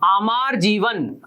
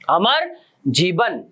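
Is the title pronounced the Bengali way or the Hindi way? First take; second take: Bengali; Hindi. First: It is pronounced with a Bengali-style reading. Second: It is pronounced with a Hindi-style reading. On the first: The speaker calls it right. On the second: The speaker calls it wrong.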